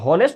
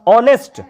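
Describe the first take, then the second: First: The word begins with an h sound. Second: The word begins with a vowel sound. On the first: The speaker calls it wrong. "हॉनेस्ट नहीं होता है" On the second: The speaker calls it right. "ओ ओ ओ आ रहा है ना"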